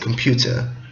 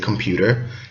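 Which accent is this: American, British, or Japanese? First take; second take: British; American. First: It is said in a British accent. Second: It is said in an American accent.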